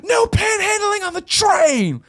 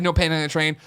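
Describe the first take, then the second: First: Very high, drawn-out mock shout; imitated loud yell. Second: Said in the usual way. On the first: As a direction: imitate a man bellowing across a train car, slowly. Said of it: "as loud as possible".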